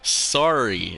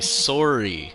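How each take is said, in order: First: It is said with an American accent. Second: It is said with a Canadian accent. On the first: "Americans say sorry" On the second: "and I say sorry"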